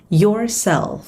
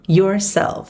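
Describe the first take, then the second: No difference in how they are said.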